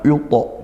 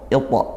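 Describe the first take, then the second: First: The first vowel is said thick and heavy. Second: The first vowel is said thin and light. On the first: The speaker calls it wrong. "bukan yuto" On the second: The speaker calls it right. "i-nya tipiskan i"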